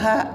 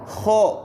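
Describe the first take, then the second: First: It sounds light, with the tongue root not raised. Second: It sounds heavy, with the tongue root raised. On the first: The speaker calls it wrong. "jangan ha" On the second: The speaker calls it right. "Jadi harus ho, bukan ha"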